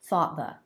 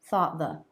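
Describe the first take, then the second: Both takes have the same delivery.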